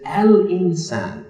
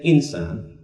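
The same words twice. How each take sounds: First: AL drawn out and raised in Al-insan; stress on Al. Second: Said in the usual way. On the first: Shown as a demonstration. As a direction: stretch out Al-insan slowly, highlighting the Al. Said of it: "What's significant about that? Al". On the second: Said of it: "He doesn't say".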